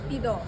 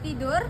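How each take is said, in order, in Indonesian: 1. Kata itu berakhir dengan bunyi 'o'. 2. Kata itu berakhir dengan bunyi 'ur'. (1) "Bunyi O digunakan menggantikan" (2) "berakhirkan dengan sebutan ur"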